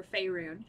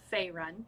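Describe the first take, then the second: First: Faerun ending in a long "roon"; alternative pronunciation. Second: Faerun ending in a short "run"; short last vowel in Faerun; first pronunciation. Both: Shown as a demonstration. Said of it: "however you wanna say it".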